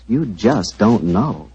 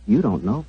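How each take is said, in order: First: Drawn-out, very slow emphasis; slow, knowing sales emphasis; slow emphatic. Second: Said in the usual way. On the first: Acted. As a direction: let every word land slowly. Ad pitch repeated line.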